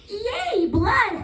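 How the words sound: It sounds wildly excited, like evil Elmo.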